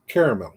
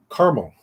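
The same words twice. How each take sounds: First: "caramel" said in three full syllables, KAIR-uh-mel; southern caramel. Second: "caramel" said in two syllables, KAR-mel, dropping the middle A; northern caramel. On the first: Vlogger showing the southern way, KAIR-uh-mel. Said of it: "In the South". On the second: Vlogger showing how northerners say it, KAR-mel. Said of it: "we say". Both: Shown as a demonstration.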